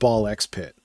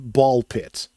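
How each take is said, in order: First: The X is spoken aloud between the two words. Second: The X is silent between the two words. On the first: This is the speaker's own preferred way. "I'm calling it Ball X Pit" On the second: This is how the game's creator says it. "the creator of this game says that it is pronounced Ball Pit"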